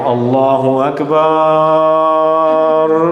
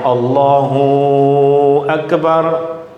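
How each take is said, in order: First: The word Akbar is drawn out long. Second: The hu sound is held long. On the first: "Akbar pun tak boleh dibaca panjang" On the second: "Hu tak boleh dibaca panjang"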